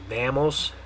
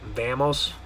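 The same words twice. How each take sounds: First: It is said with English vowel sounds. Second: It is said with English vowel sounds.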